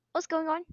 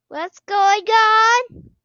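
First: Said in the usual way. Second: Higher, louder, slow rising what's going on; scared drawn-out question. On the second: Real, not acted. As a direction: stretch it out in fear.

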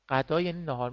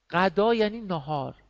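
First: Said in the usual way. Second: A teacher sounding out غدا carefully; clear dictation. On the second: Shown as a demonstration. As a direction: spell out غدا for students, louder and higher.

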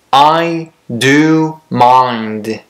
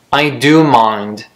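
First: Very slow model reading. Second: Said in the usual way. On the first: Shown as a demonstration. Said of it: "teacher models slow reading". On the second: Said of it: "teacher models normal reading".

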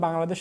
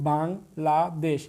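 First: Said in the usual way. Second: Bangladesh slowly split into three syllables, with gaps. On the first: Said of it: "Bangladesh শব্দে কতটি অক্ষর আছে". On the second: Shown as a demonstration. Teacher showing students its syllable count, broken up slowly. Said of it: "ভেঙে ভেঙে যে কয়েকবার উচ্চারণ".

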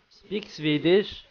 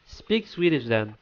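First: Put-on slow, questioning Swedish accent; mock Swedish accent. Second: Said in the usual way. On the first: Doubting a player's claimed nationality, mock Swedish accent. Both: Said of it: "you would talk like this".

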